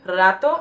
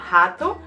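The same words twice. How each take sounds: First: It is said with a Spanish pronunciation. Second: It is said with a Brazilian Portuguese pronunciation. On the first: It means a short while. "This word in Spanish would pronounce it rato" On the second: It means a rat. "pronounced differently in uh, Brazilian Portuguese, it's pronounced rato"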